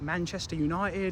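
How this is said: It is said in a British accent. "British people don't pronounce their R's and they drop their T's"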